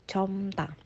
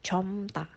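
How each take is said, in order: First: Only an m is sounded before ta. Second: Only an m is sounded before ta.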